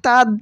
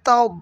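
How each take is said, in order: First: The d sound is plain and light. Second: The d sound is heavy and thick. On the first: The speaker calls it wrong. "এখানে যদি তাদ বলা হয় তাহলে দাল হয়ে গেল, নামাজ হবে না, ভুল" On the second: The speaker calls it right. "বলতে হবে তব"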